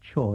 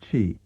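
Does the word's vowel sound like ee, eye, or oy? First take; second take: oy; ee. First: The vowel sounds like oy. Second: The vowel sounds like ee. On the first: This is another form heard in local dialect. "or even as choi" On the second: This is the form learned in the standard revived language. "we have learned to pronounce as chi"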